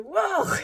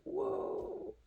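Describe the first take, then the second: First: High, loud burst of a whoa; sudden high-pitched startled shout; startled cry. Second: High-pitched whoa without the shout; lighter, high mock-startled whoa. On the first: Retold or imitated. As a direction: yelp it as if jolted by a sudden commercial. Retelling being jolted by a commercial. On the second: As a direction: replay the startle high, at everyday volume. Retells the same startled reaction, quieter.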